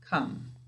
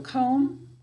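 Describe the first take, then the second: First: The vowel is a short uh sound. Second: The vowel is a long o sound. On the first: This is the pronunciation used in everyday talk. "When we're talking, we say come" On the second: This is the pronunciation used for spelling. "to spell this word, we have to say comb"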